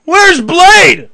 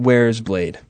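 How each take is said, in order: First: Much higher, louder Where's Blade; hammed-up announcer. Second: Said in the usual way. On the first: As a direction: belt Where's Blade as a show jingle. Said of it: "play it, and then say". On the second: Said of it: "Jimmy Spickle's asking".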